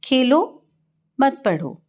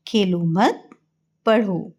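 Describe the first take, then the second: First: Khelo set apart on a rising tone, a pause, then मत पढ़ो falling; pause after खेलो. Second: खेलो मत run together and rising, a pause, then पढ़ो alone; pause after मत. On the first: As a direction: break after Khelo, keep मत पढ़ो together. (खेलो के बाद विराम, मत पढ़ो एक साथ) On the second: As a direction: break after मत, leaving पढ़ो on its own. (खेलो मत एक साथ, फिर विराम, फिर पढ़ो) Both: Shown as a demonstration. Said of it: "इन वाक्यों को देखिए और पढ़िए".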